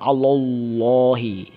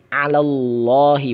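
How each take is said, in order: First: The first l sound is heavy and thick. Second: The first l sound is light and thin. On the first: The speaker calls it wrong. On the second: The speaker calls it right. "lam yang pertama itu di ala itu tipis"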